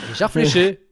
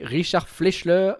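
First: "Fleischer" said cleanly as fleh-SHAIR; "Fleischer" said right, with no l before the ending; corrected name. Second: "Fleischler" said with an extra l, as fleush-LER; name garbled as "Fleischler", slow and unsure; mispronounced name. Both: Real, not acted. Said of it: "Richard Fleischer, voilà".

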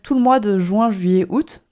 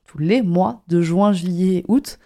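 First: Said in the usual way. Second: Slow, deliberate correction stressing "les". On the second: Real, not acted. Corrects herself, slower, marking plural. (en insistant lentement sur « les »)

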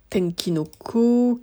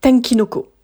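First: "Tenkinoko" whispered again slowly, syllable by syllable; careful whispered confirmation of the title; slow whispered repeat. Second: "Tenkinoko" whispered high as the name comes back; sudden whispered recall of the title. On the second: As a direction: breathe "Tenkinoko" out as if it just came to mind. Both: Shown as a demonstration. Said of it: "je cherche le nom".

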